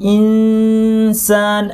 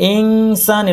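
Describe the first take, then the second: First: The nasal hum blends smoothly into the s. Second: The nasal sounds like a separate 'ng'. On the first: The speaker calls it right. "জিহ্বা সিন বলার জন্য ready" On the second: The speaker calls it wrong. "এরকম না"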